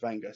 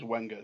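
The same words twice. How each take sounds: First: The name is said with a French-style pronunciation. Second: The name is said with an English-style pronunciation. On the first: "I think the French pronounce it Wenger" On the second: "It says Wenger because it's W E N G R"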